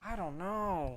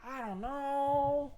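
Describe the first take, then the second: First: Higher-pitched singsong, rising then falling; puzzled singsong at normal volume; stumped singsong. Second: Very high, slow singsong with a long held KNOW; drawn-out high-pitched cluelessness; exaggerated stumped wail. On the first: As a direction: lilt up and back down, stumped. Stumped at guessing the accent. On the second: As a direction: stretch KNOW out on a high note. Stumped, repeats it more exaggeratedly. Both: Real, not acted.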